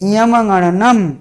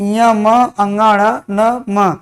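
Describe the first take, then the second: First: The syllables are run together as one word. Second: The syllables are said apart, one by one.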